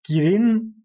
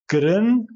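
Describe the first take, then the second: First: The vowel sounds like a clear 'ee'. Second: The vowel sounds like a short muffled 'uh'. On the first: The speaker calls it wrong. "girin, birin demiyoruz" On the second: The speaker calls it right. "Bu harf eşittir I"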